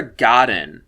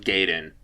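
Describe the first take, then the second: First: Godin with an open "ah" in the first syllable; alternate pronunciation. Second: Gaden with a long "ay" in the first syllable; corrected pronunciation. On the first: Reviewer first trying the actress's surname, pronounced GAH-din for Godin. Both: Shown as a demonstration. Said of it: "I'm pretty sure it's pronounced Gaden".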